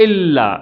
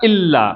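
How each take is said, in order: Both takes have the same delivery.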